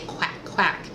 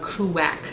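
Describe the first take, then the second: First: The word starts with a smooth kw sound. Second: The word starts with a separate koo syllable. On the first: The speaker calls it right. "You need to say" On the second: The speaker calls it wrong. "she overcorrected"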